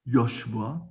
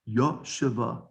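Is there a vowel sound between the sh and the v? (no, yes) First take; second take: no; yes. First: The sh and v run together without a vowel. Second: A full vowel separates the sh and the v. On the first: The speaker calls it wrong. "It's not Yoshva" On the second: The speaker calls it right. "it's Yoshava"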